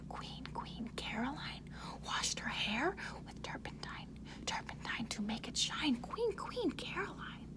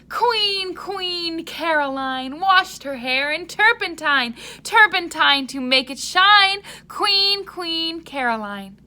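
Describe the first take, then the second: First: It is whispered softly. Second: It is shouted loudly.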